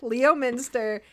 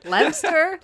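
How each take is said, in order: First: The name is said with four syllables. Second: The name is said with two syllables.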